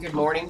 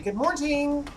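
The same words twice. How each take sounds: First: It is said normally with no added t. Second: It is said with an extra t sound inserted. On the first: "instead of saying good morning" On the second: "We always put a T in words"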